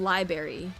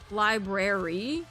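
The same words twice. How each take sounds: First: The first R sound is dropped from the word. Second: Both R sounds in the word are pronounced. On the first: The speaker calls it wrong. "instead of saying" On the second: The speaker calls it right. "make sure that I pronounce the R's"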